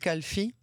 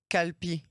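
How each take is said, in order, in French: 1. La consonne du milieu est un son f. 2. La consonne du milieu est un son p. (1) "ils le prononcent kalfi, vous savez, avec cette erreur" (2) "On dit souvent même qu'ils prononcent le mot euh"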